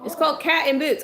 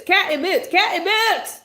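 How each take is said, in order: First: Higher, firm insistence on Cat in Boots; firm correction. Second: Cat in Boots rising to a loud high yell; building exasperated yell. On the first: Mom correcting her son's movie title, firm. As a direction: set him straight firmly. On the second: Mom yelling the title over her teasing son, exasperated. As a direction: insist louder each time. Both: Real, not acted.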